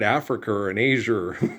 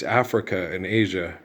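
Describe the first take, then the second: First: An r sound is added after the word Africa. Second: The words end in plain vowels with no added r. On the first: The speaker calls it wrong. "that's not how you say that" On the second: The speaker calls it right. "it's it's Africa and Asia"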